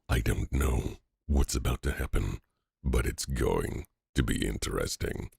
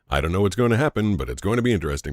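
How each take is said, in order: First: It is said in a dramatic movie-trailer voice. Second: It is said in a normal conversational voice.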